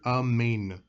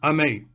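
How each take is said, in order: First: The final n sound is clearly pronounced. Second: The final n sound is left off. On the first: The speaker calls it right. "completely enunciate the entire word" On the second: The speaker calls it wrong. "completely forgetting to add in the nun"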